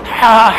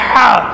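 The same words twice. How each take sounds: The two takes are said the same way.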